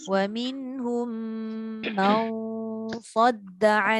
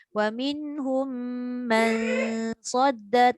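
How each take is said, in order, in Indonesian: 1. Bunyi sengau itu berat, sesuai dengan sad. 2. Bunyi sengau itu ringan, tidak sesuai dengan sad. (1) "Sebab bertemu dengan huruf isti'la iaitu sad" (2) "tak sesuai. Dengung dah dengung tapi penyesuaian tu tak berapa kena"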